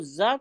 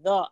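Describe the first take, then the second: First: The consonant is said harshly and forcefully. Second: The consonant is said softly and gently. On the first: The speaker calls it wrong. "तो वो सख्ती आ जाएगी" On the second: The speaker calls it right. "आराम से आएगी"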